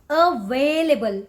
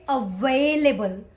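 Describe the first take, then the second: The two takes are said the same way.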